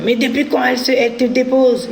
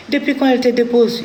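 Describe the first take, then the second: First: High, sharp angry challenge; retold outburst, pitched high; angry ex-husband. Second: High, sharp repeat of the challenge; retold outburst, pitched high; angry ex-husband. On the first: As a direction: mimic the husband snapping at the child. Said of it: "il s'énerve contre l'enfant". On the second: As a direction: mimic him scolding the boy. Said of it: "Il s'est énervé contre le petit".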